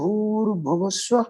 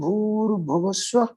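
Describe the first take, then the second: First: The words run together quickly, with an r sound. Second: The words run together quickly, with an r sound.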